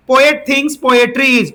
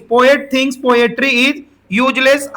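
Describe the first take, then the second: First: Very slow, word by word dictation; teacher spelling out the question for students to write, slowly. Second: Drawn out, every word spaced; slow dictation. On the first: Teacher dictating the exam question to students, very slowly. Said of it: "reads the question aloud slowly". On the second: Teacher repeating the question to the class, very slowly. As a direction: read it slowly so they can copy. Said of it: "repeats the question slowly". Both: Shown as a demonstration.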